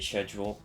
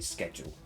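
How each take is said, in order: First: The word begins with a sh sound. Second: The word begins with an sk sound. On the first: "with a soft, soft C" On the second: "the most common way"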